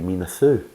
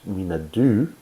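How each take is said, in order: First: The second word begins with a th sound. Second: The second word begins with a d sound. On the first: This is how the Cornish locals would say it. "in the Cornish language, D H is pronounced th" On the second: This is how a Scottish speaker would say it. "if I said it in Scottish"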